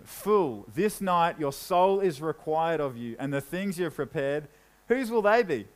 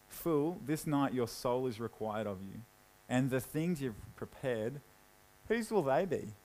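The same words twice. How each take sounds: First: Said in the usual way. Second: Low, soft, dry and mocking; quiet sarcasm. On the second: God mocking the rich man, in a low sarcastic voice. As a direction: let the irony sink in quietly. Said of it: "a little bit of sarcasm there".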